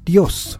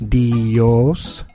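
First: The vowels glide together into one syllable. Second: The vowels are split into two syllables. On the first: "we pronounce it Dios, kind of all slurred together" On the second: "rather than Dios"

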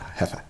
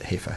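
First: The first syllable sounds like 'heff'. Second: The first syllable sounds like 'hay'. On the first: The speaker calls it wrong. "and not Hefe" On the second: The speaker calls it right. "he would prefer if we called it Haifa"

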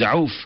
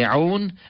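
First: The name ends with an f sound. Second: The name ends with an n sound. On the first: The speaker calls it right. "the preferred view is Auf" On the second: The speaker calls it wrong. "some pronunciations say Aun"

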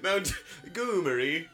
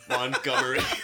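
First: The name is said in an exaggerated, posh-sounding way. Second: The name is said in a plain, ordinary way. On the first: It imitates how someone else mispronounced it. The speaker calls it wrong. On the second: It is the usual way to say the name. The speaker calls it right. "the name Montgomery"

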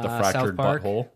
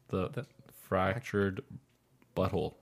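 First: The words run together at normal speed. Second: The words are said slowly and pulled apart.

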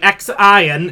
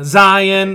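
First: The name begins with a 'ks' sound. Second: The name begins with a 'z' sound. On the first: "I used to say X-Ion" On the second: "Zion, that one"

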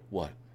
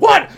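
First: It is said quietly, under the breath. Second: It is said loudly, like screaming.

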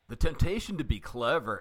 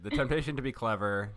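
First: It is said in a put-on Alf-like voice. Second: It is said in his own natural voice.

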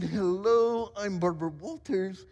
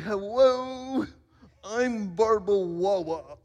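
First: The surname is pronounced plainly as Walters. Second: The surname is pronounced as Wawa. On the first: "Instead of saying" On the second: "she always had, if you will, a little bit of an accent"

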